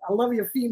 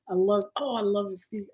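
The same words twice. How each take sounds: First: It is said in a New York accent. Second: It is said as a muffled moaning sound. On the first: "It's like a New York accent" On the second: "If it's making muffled moaning noises"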